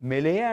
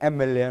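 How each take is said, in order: First: The word begins with an 'm' consonant sound. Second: The word begins with an 'e' vowel sound. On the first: The speaker calls it wrong. "మెలయే అంటలా" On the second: The speaker calls it right. "ఓవెల్ సౌండ్తో పలుకుతున్నాం"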